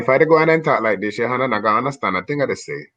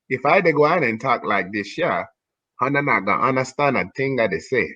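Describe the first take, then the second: First: It is said fast. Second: It is said slowly.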